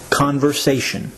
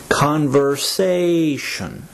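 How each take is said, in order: First: Said in the usual way. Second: Conversation, very slow, stretching the "sa" syllable; drawn-out long A. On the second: Shown as a demonstration. Teacher shows learners the long A in Conversation, drawn out slowly. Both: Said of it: "it's the long A sound".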